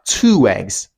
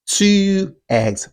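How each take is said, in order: First: A w sound links the two words together. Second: The words are said separately without a linking sound.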